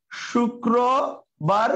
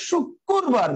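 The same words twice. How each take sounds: First: শুক্রবার very slowly, broken as "shu-kro... bar"; syllable by syllable. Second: শুক্রবার drawn out as "shuk... kur-bar"; doubled k. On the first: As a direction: spell out শুক্রবার in slow, separate pieces. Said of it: "এখান থেকে উচ্চারণ করে". (ভেঙে ভেঙে ধীরে "শুক্র... বার") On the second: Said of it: "ক এর ডাবল উচ্চারণ হচ্ছে". (ভেঙে "শুক্...কুরবার", ক-এর দ্বিত্ব) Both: Shown as a demonstration.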